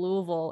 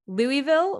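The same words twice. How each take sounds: First: It is pronounced the way city locals say it. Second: It is pronounced the way newscasters and outsiders say it. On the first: This is how people inside the city say it. "everyone is like Louisville, Louisville, Louisville" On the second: This is how the news and people outside the city say it. "which is like how the news says it"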